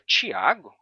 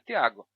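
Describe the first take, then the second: First: The first consonant is a ch sound. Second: The first consonant is a plain t sound. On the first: This is the unfamiliar way the name was said. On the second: This is how the name's owner says it.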